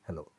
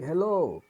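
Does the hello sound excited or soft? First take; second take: soft; excited. First: It is said gently and softly. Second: It is said with surprise and excitement. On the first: Greeting a friend in a time of grief. "काफ़ी नम्र और soft hello होगा" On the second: Meeting an old friend after years. "थोड़ा सा surprise होगा, excitement होगा आपके आवाज़ में"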